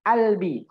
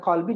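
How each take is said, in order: First: The word begins with a glottal stop instead. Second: The word begins with a deep back q sound. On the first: This is the Egyptian colloquial pronunciation. "mereka mengucapkan qaf dengan hamzah" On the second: This is the standard pronunciation. "Kalau kita bilang kolbi"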